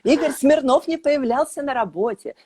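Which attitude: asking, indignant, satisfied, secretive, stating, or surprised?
indignant. It is said with an indignant tone. The speaker is outraged by this. "С возмущением"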